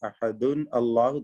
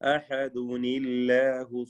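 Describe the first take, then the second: First: Ahad ends in -un, then Allahu starts with a. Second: Ahad runs into Allahu with a linking -uni- sound. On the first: The speaker calls it wrong. "തെറ്റാണ്" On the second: The speaker calls it right. "ചേർത്തോതുകയാണെങ്കിൽ അഹദുനില്ലാഹു സ്വമദ് എന്നോദണം"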